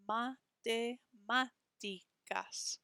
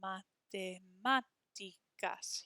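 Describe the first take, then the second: First: Matemáticas slowed right down, with the MÁ pushed harder; a teacher drawing out Matemáticas to show the MÁ; slow stressed syllables. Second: Matemáticas slow, with a strong MÁ; Matemáticas modelled slowly with the accent leaned on; stress on the accent. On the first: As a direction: spell out the stress in Matemáticas, slowly. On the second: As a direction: hit the MÁ in Matemáticas. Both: Shown as a demonstration. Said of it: "Hear how that A with the accent mark is a little bit stronger".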